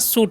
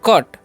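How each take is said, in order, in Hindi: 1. यह शब्द s ध्वनि से शुरू होता है। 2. यह शब्द k ध्वनि से शुरू होता है। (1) "सी को अगर हम सी पढ़े तो क्या हो जाएगा, सूट हो जाएगा। तो सूट पढ़ना है, नहीं पढ़ना है" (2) "सी का उच्चारण यहाँ पर क होता है, इसलिए हम लोग क पढ़ेंगे"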